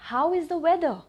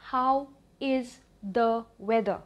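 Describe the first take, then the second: First: Said in the usual way. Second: Slow, spaced teaching delivery; word-by-word model. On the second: Shown as a demonstration. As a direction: split into separate words with pauses. Repeated word by word for learners.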